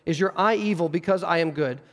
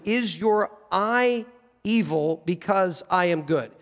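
First: Said in the usual way. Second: Slow, deliberate question, weighing each word; slow literal rendering. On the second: Shown as a demonstration. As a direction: draw out "eye evil" for emphasis.

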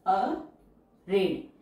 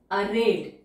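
First: arid stretched out very slowly; slow teacher dictation. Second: Said in the usual way. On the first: Shown as a demonstration. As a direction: draw out arid for students to follow. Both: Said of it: "teacher says word then dictates".

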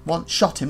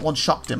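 First: "shot" said with a clean t, no k sound; careful "shot". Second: "shot" turned into "shocked", with a k sound; mispronounced "shot". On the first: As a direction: say "One shot him" with "shot", not "shocked". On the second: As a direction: say "shocked" with k before the t. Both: Shown as a demonstration. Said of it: "not one shocked him".

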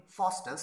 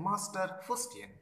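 First: Said in the usual way. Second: Faustus said as "Fustian", FUS-tee-an, slowly; "Fustian" for Faustus, drawn out; garbled name. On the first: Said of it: "pronounce properly Faustus". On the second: Retold or imitated. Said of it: "he cannot pronounce properly".

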